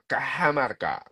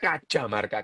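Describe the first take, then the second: First: The middle consonant is an h sound. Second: The middle consonant is a j sound. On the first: "kalau dibaca dalam bahasa Spanyol Kahamarka" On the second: "sebetulnya Kajamarka"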